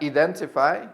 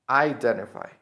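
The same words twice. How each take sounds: First: "identify" as ee-DEN-ti-fy; mistaken first vowel. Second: "identify" as eye-DEN-ti-fy; correct first vowel. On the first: Teacher warns against the mistake, "identify" starting with ee. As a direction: open "identify" on an ee sound. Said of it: "Not identify". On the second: Teacher corrects the learners' mistake, "identify" starting with eye. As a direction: open "identify" on a long eye sound. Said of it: "the correct pronunciation of this verb is". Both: Shown as a demonstration.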